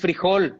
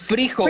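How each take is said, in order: First: The stress is on the last syllable. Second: The stress is on the first syllable. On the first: "no es frijol" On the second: "lo escriben con la tilde en la I"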